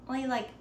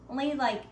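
Both takes have the same delivery.

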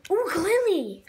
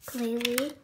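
First: Delighted high "Ooh, Glalie!"; thrilled at the card pull; excited. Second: Said in the usual way. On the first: Real, not acted.

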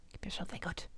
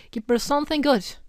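First: Breathy pleading whisper. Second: Said in the usual way. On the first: Shown as a demonstration. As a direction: whisper it softly.

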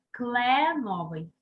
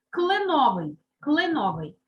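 First: Кленовий slowly, with a full first «е»; spelling pronunciation. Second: Said in the usual way. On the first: Shown as a demonstration. Teacher confirms the letter, slow кленовий with clear «е». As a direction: sound out «кле» in кленовий. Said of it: "Добираємо перевірне слово". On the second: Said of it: "Яку букву запишемо?".

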